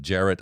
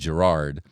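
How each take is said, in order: First: The name is said in a non-American way. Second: The name is said the American way.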